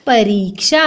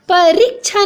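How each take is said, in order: First: "परीक्षा" as pa-ree-ksha; correct ksh sound. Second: "परीक्षा" as pa-rik-chha; higher "परीक्षा" with a chh sound; wrong pronunciation. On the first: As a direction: clear ksh and long ee in "परीक्षा". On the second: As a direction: put chh in place of ksh in "परीक्षा". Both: Shown as a demonstration. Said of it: "नहीं होता बच्चों".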